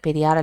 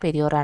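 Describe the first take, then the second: First: The final syllable has an 'aa' vowel. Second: The final syllable has an 'o' vowel. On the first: The speaker calls it wrong. "പെരിയാർ അല്ല" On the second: The speaker calls it right. "പെരിയോർ ആണ്"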